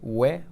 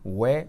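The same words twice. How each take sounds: No difference in how they are said.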